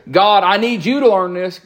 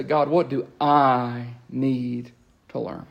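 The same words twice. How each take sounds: First: A touch of a bossy demand, slightly louder; pushy demand. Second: Slow, softer humble question; humble asking. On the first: Preacher mimicking a prayer that tells God, mild pushy demand. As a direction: lecture God lightly. Wrong prayer set against right. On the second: Preacher modelling the right prayer to God, slow humble ask. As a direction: ask gently, ready to listen. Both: Retold or imitated.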